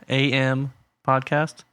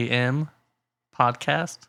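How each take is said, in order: Both takes have the same delivery.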